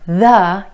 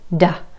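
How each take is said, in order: First: It begins with a voiced th sound. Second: It begins with a d sound.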